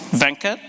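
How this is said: The name is said the Indian way.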